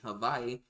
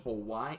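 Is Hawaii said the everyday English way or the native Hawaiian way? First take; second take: Hawaiian; English. First: It is said the native Hawaiian way. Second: It is said the everyday English way.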